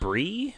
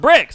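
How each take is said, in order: First: The name ends on a long ee vowel. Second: The name ends with a ks sound. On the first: The speaker calls it right. "I think it's pronounced brie, like the cheese" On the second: The speaker calls it wrong. "we're probably mispronouncing that"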